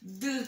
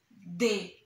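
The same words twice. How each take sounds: First: The consonant is said alone without a vowel. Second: The consonant is followed by an 'e' vowel. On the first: This is the sound the letter makes. "que tem somzinho de D" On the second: This is the name of the letter. "Depois nós temos o D"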